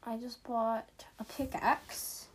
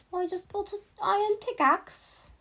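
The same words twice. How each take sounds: First: Said in the usual way. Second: High and loud, a goofy put-on voice; silly put-on voice. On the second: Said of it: "I don't know why I'm talking like this".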